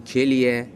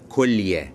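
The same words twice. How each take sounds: First: The first vowel is not an u sound. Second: The first vowel is an u sound. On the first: The speaker calls it wrong. "كثير من الناس يتصور من يقول كلية قاعد يحكي فصيح" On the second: The speaker calls it right. "وهذا لفظها الفصيح"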